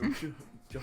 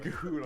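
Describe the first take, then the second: First: The name begins with a soft sh-like sound. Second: The name begins with a hard k sound. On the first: The speaker calls it wrong. "No ch chut" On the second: The speaker calls it right. "It's motherfucking Kahoot"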